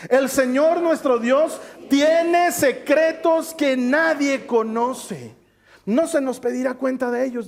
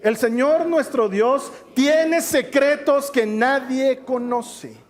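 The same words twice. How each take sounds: First: Slower and higher, leading the room through the verse; slow group reading. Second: Slow, deliberate scripture reading; measured, drawn-out verse reading; slow reading aloud. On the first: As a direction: read it together, drawing each word out. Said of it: "Otra vez vamos a leerlo juntos". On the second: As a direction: read it out slowly for the congregation. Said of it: "Ayúdame a leerlo desde el principio". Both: Shown as a demonstration.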